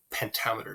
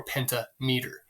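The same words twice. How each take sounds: First: Said in the usual way. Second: Pentameter said as two words, penta meter; split into roots. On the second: Shown as a demonstration. Second take splits word into parts.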